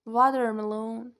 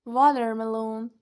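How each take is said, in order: Both takes have the same delivery.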